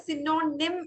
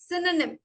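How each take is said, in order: First: "synonym" as si-NO-nim; wrong pronunciation. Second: "synonym" slowly as SIN-uh-nim; correct pronunciation. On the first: Teacher showing what we don't say, mispronounced. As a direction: say "synonym" with a long middle "no". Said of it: "നമ്മൾ പറയില്ല". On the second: Teacher correcting a student, carefully pronounced. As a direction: say "synonym" with a short middle vowel. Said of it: "It is actually". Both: Shown as a demonstration.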